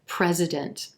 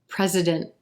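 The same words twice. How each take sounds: First: The final T is released very softly. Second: The final T is dropped into a nasal sound. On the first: "a very soft released T at the end of this word" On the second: "That N T at the end of this word is going to sound like mm"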